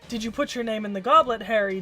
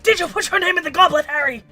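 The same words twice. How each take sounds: First: It is said calmly and quietly. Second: It is yelled in an upset way.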